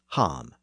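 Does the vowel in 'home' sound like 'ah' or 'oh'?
ah. The vowel is an open 'ah' sound. This is how the word was said in the north. "the northern pronunciation as ham"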